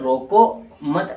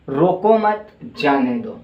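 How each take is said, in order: First: Teacher demo with the pause after "रोको" in "रोको मत". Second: "रोको मत" said raised and louder, brief pause, then "जाने दो" falling; pause after मत. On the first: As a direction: break the phrase as "रोको", then a pause, then "मत". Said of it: "अब जैसे हम रोको मत". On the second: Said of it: "जैसे". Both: Shown as a demonstration.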